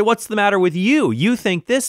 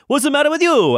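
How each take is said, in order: First: Higher-pitched imitation of indignation; mock indignant challenge. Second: High, loud hammed-up Italian accent; mock Italian accent. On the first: Those who disagree answering back, mock indignant. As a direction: challenge them in a raised, mock-affronted voice. Acts out opponents' challenge, accent dropped. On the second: Imagined opponent snapping back in a debate, mock Italian accent. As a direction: put on an exaggerated Italian accent, pitched way up. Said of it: "this person I'm talking to is Italian now".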